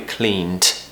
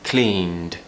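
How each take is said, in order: First: It ends in a voiceless t sound. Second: It ends in a soft, voiced d sound. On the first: The speaker calls it wrong. "so it doesn't sound like a cleaned" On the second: The speaker calls it right. "we're very softly pronouncing that d. We still need some voice"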